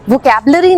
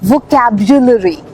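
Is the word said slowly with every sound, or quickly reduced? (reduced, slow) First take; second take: reduced; slow. First: It is said quickly with some sounds reduced. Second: It is said slowly with every sound pronounced. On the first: The speaker calls it wrong. "नहीं" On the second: The speaker calls it right. "आहिस्ता आहिस्ता बोलना है, हर एक letter की sound है इसमें"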